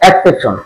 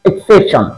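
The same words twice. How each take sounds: First: The word begins with an 'eks' sound. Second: The word begins with an 'iks' sound. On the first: The speaker calls it wrong. "আমরা এর উচ্চারণ করি এক্সেপশন" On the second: The speaker calls it right. "ইক ইক"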